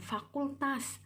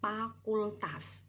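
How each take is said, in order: First: The first sound is a clear f. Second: The first sound is a p-like sound. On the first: The speaker has formal education. The speaker calls it right. "yang berpendidikan formal" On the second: The speaker has little formal education. The speaker calls it wrong. "yang kurang berpendidikan"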